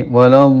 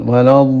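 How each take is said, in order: The two takes are said the same way.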